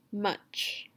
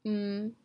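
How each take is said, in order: First: Said in the usual way. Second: MUCH broken into m, u, ch; segmented sounds. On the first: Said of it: "I'm gonna tell you a word". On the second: Shown as a demonstration. Teacher showing the sounds in much, segmented. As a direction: say "M-uch" with a held m, then gaps. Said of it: "you're gonna tell me the sounds".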